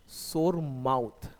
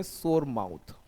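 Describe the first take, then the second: First: 'सोर mouth' drawn out slowly, each word clear; slow repeat. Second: Said in the usual way. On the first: Shown as a demonstration. Teacher repeating 'सोर mouth' slowly for students. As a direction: stretch out 'सोर mouth' for the class. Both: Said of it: "बोलते हैं सोर mouth".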